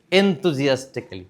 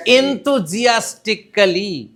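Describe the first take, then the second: First: Said in the usual way. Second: Enthusiastically drawn out slow with high energy. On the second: Shown as a demonstration. Teacher to class, modelling the word enthusiastically. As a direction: say Enthusiastically slowly and eagerly. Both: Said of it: "What is the word?".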